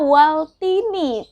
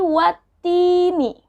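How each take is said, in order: First: An L sound is pronounced before the t. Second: The L merges into a doubled t sound. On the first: The speaker calls it wrong. "Jangan dibacanya waltini" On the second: The speaker calls it right. "tapi watini"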